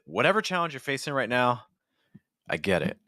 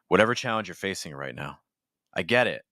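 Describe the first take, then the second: First: The phrase starts at a high pitch. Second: The phrase starts at a low pitch. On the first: "or you could do the opposite" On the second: "we could have started lower"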